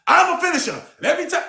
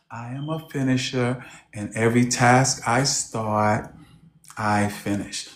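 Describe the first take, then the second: First: Much higher, punchy coach delivery; energetic demo. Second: Low, soft, timid mumble of the line; meek imitation. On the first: Shown as a demonstration. Coach showing the client how to say it, high and energetic. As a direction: show her how to say it with fire. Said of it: "say it like this". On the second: Meek client repeating the coach's line, low and soft. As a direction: say it like you barely believe it. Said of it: "She would say".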